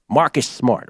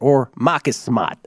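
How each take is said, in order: First: It is said in a plain, neutral accent. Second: It is said in a New England accent.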